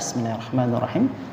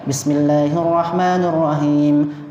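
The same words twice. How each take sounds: First: It is recited quietly, almost under the breath. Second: It is recited aloud in a clear voice. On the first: This follows the view that it is recited silently. "maka dibacanya dengan sir" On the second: This follows the view that it is recited openly. "Dalam fikih Syafi'iyah maka dibaca jahar"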